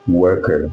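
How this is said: The word is said in an American accent. "Then U S call it worker"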